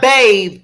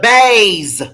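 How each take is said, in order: First: The word is said the standard, non-Southern way. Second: The word is said the Southern way, z-like ending. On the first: "Not bathe" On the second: "down south we say bathes. We put a Z and an E at the end"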